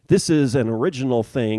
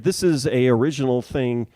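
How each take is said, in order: First: The article before original is linked 'an'. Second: The article before original is a plain 'a'. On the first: The speaker calls it right. "then I will say it correctly" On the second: The speaker calls it wrong. "if I say the thing"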